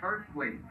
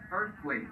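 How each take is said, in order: Both takes have the same delivery.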